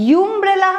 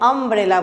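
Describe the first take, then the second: First: The word begins with a 'you' sound. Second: The word begins with an 'uh' sound. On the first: The speaker calls it wrong. "यूम्ब्रेला हम नहीं बोलते हैं" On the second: The speaker calls it right. "अम्ब्रेला बोलते हैं"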